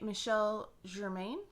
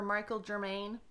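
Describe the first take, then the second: First: The name is said without a flat American accent. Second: The name is said with a flat American accent. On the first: "I'm pretty sure it's Michel" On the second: "if you're going to say it with a flat American accent"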